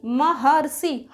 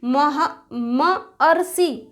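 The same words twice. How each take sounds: First: महर्षि said slowly as one joined word; teacher joining the sounds into one word; joined whole word. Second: मह- then मअर्षि, very slowly, syllable by syllable; teacher breaking the word into sounds; broken into syllables. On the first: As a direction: put it back together as महर्षि. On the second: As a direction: pull मअर्षि apart so the अ and अर show. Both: Shown as a demonstration. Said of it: "उच्चारण करके पहचान लेंगे".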